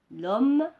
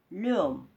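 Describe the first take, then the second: First: L'homme with the vowel dropped, said clearly and loud; correct elision. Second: Le homme with both vowels kept, a deliberate mistake; wrong form, no elision. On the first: Teacher modelling L'homme for pupils. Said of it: "on dit l'homme". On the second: Teacher showing pupils the wrong le homme. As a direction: show the error le homme. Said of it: "On ne dit pas le homme". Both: Shown as a demonstration.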